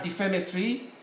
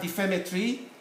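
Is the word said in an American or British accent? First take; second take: British; British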